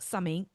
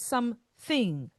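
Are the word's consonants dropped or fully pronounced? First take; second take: dropped; fully pronounced. First: Some consonants are dropped or softened. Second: The consonants are all clearly pronounced. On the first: The speaker calls it wrong. "not something" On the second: The speaker calls it right. "The word is something"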